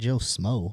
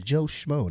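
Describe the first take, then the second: First: The second word starts with an 's' sound. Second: The second word starts with a 'sh' sound. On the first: The speaker calls it wrong. "not Joe Smo" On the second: The speaker calls it right. "It's Joe Schmo"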